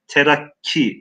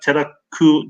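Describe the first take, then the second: First: The word ends with an 'i' vowel. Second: The word ends with a 'u' vowel. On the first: The speaker calls it right. "Terakki diye kelimeyi ne yapıyoruz? Okuyoruz" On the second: The speaker calls it wrong. "terakku diye okumuyoruz"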